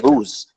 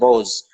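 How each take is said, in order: First: The long vowel sounds like 'oo'. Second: The long vowel sounds like 'oh'. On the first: This is how modern Persian speakers say it. "modern uh, Persian speakers would say ruz" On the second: This is the older pronunciation kept in the subcontinent. "an older pronunciation ... it has the majhul vowels"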